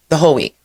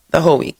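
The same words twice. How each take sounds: The two takes are said the same way.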